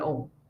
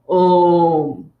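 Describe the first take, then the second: First: It sounds thin, placed forward in the mouth. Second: It resonates deep from the throat and chest. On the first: The speaker calls it wrong. "when it's coming from the front of the mouth" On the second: The speaker calls it right. "from the back of your throat, and you can feel it resonating in your uh, chest"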